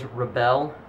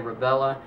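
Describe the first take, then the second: First: The name ends without an extra vowel. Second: The name ends with an extra 'uh' vowel. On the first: The speaker calls it right. "I believe the correct pronunciation of it is Rebelle" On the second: The speaker calls it wrong. "I'm saying it wrong when I say Rebella"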